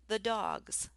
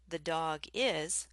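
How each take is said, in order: First: The last two words merge into one contraction. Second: Each word is said fully and separately. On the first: "we might say the dogs" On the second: "Instead of saying the dog is"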